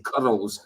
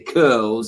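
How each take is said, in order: First: The R is said with a roll. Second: The R is said without a roll. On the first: "I say curls. I roll my R's" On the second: "I don't say curls"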